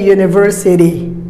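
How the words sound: The middle t sounds like a soft d. "Americans say university"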